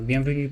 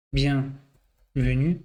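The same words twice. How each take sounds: First: Said in the usual way. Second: BIENVENUE very slow, split as bien... venue; drawn out while typing. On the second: Real, not acted. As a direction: say "Bienvenue" slowly in pieces, as if typing it. Says it while typing the word.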